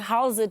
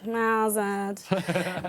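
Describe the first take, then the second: First: The greeting sounds lively and excited. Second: The greeting sounds relaxed and low-key. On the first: The speaker is genuinely glad to see someone. "with more euphoria" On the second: The speaker is casual and at home. "me being relaxed in my house"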